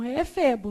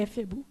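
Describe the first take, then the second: First: "efebo" stressed on the middle syllable, e-FE-bo; correct stress shown. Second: "éfebo" stressed on the first syllable, É-febo, a little softer; wrong stress shown. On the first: Teacher telling students the right form, "efebo" stressed on FE. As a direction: say "efebo" with the weight on FE. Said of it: "é efebo, não é éfebo". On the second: Teacher warning students off the mistake, "éfebo" stressed on É. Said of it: "não é éfebo". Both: Shown as a demonstration.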